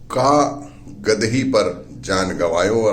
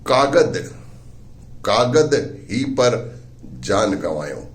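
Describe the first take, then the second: First: The first break comes after 'ka'. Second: The first break comes after 'kagad'. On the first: A life was wasted on a foolish girl. "उसने उसे कुछ यूं पढ़ा" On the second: A life was lost because of paperwork. "उन्होंने उसे कुछ इस तरह से पढ़ा"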